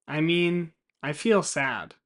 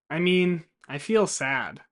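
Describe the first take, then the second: No difference in how they are said.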